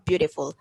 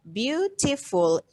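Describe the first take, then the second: First: Said in the usual way. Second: BEAUTIFUL slowly split into its syllables. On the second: Shown as a demonstration. Teacher counting syllables for the class, BEAUTIFUL said slowly in separate syllables. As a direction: sound out BEAUTIFUL slowly, one syllable at a time. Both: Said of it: "how many syllable of beautiful".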